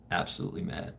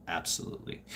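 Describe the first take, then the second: First: Said in the usual way. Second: Breathy whispered "Absolutely.". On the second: Acted. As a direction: drop "Absolutely." to a toneless whisper. Repeats answer, then whispers it.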